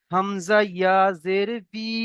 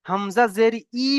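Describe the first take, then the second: First: Slow, বি ending halfway between বি and ই; correct reading. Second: Hamza জের ই read with a plain ই sound; wrong reading. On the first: Teacher slowly demonstrating the correct বি to the class. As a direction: read বি slowly, neither full বি nor full ই. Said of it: "পুরো বি হবে না আর পুরো ই হবে না". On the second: Teacher shows students the wrong reading, ই with a full vowel. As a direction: say ই, the way students should not read it. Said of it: "পড়বেন না". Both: Shown as a demonstration.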